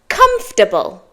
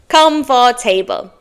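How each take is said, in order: First: The word is shortened, with fewer syllables. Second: Every written syllable is sounded out fully. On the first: The speaker calls it right. "But it's comfortable" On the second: The speaker calls it wrong. "it looks like it should be said as comfortable"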